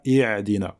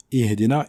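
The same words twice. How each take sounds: First: "i'dina" with a throat Ayn instead of H; Ayn replacing Ha. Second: "ihdina" with an audible H, not Ayn; correct Ha. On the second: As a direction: breathe the H clearly in "ihdina". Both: Shown as a demonstration. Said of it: "et non pas i'dina".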